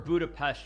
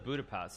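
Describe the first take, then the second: First: It is said with a Hungarian pronunciation. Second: It is said with a plain English pronunciation. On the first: The speaker calls it right. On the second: The speaker calls it wrong.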